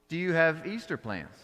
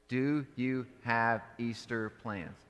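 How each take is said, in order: First: It sounds casual, like talking to a friend. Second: It sounds stiff and recited.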